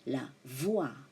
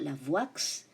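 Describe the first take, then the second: First: The final x is silent. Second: The final x is pronounced aloud. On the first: The speaker calls it right. "but it is" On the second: The speaker calls it wrong. "It's not"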